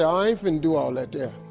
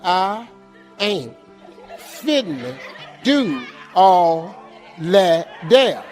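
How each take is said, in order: First: It is said at normal speed. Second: It is said slowly.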